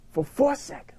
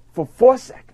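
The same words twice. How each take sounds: First: "for four seconds" whispered much softer; hushed whisper. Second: Said in the usual way. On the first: Shown as a demonstration.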